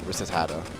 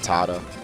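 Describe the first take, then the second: First: The name is said with an extra repeated syllable. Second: The name is said with three short syllables. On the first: The speaker calls it wrong. "I think I used to pronounce it like ratatata" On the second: The speaker calls it right. "But it's definitely Rattata"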